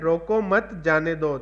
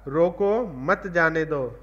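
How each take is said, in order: First: There is a pause right after मत. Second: There is a pause right after रोको.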